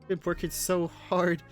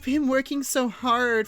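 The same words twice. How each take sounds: First: It is read in a plain, ordinary voice. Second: It is read in a put-on, zesty voice. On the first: The speaker calls it wrong. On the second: The speaker calls it right.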